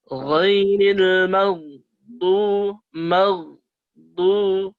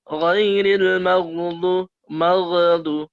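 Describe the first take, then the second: First: It is said slowly, the gh held clearly. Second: It is said quickly, the gh rushed. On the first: The speaker calls it right. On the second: The speaker calls it wrong.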